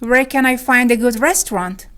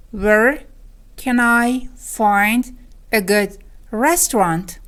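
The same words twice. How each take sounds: First: Said in the usual way. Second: Very slow, each chunk set apart; word by word. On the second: Shown as a demonstration. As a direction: pause after "Where", then piece out "can I find a good restaurant". Lesson repeats it word by word. (خیلی شمرده و آهسته)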